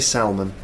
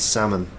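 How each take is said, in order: First: The L sound is pronounced in the word. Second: The L sound is silent in the word. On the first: The speaker calls it wrong. "You don't say salmon" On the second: The speaker calls it right. "It's a silent L"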